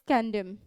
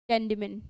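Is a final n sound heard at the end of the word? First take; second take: no; yes. First: The final n sound is silent. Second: The final n sound is pronounced. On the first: The speaker calls it right. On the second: The speaker calls it wrong.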